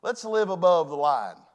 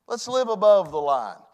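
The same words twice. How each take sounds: The two takes are said the same way.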